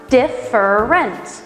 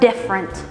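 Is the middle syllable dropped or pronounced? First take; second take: pronounced; dropped. First: All three syllables are clearly pronounced. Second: The middle syllable is dropped entirely. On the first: "you speak syllabically" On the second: "we don't need that middle syllable"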